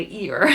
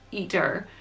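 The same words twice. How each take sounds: First: "eater" with the T dropped, like "ee-er"; own accent. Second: "eater" said with a distinct T sound in the middle; clear T in eater. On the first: Narrator shows the accent doesn't say that, "eater" without its T. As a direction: say "eater" leaving out the middle T. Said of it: "my accent doesn't say that, I say eater". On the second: Narrator clarifies the word for listeners, "eater" with a clear T. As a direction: pronounce the T in "eater" carefully. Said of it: "What I'm saying is eater". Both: Shown as a demonstration.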